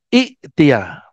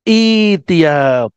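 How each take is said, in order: First: A glottal catch follows the short first vowel. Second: The first vowel is long with no catch. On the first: The speaker calls it wrong. "bukan i'tia" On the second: The speaker calls it right. "membacanya itia ... Hamzahnya yang mati berubah menjadi ya"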